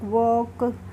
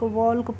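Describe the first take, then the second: First: No l sound is heard before the k. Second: An l sound is heard before the k. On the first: The speaker calls it right. "इस तरीके से पढ़ेंगे" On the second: The speaker calls it wrong. "अगर rule नहीं पता होगा"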